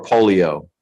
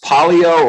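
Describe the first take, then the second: First: "polio" with a long OH first vowel; polio as POH-lio. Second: "polio" with an open AH first vowel; polio as PAH-lio. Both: Shown as a demonstration. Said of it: "is it pronounced polio or polio".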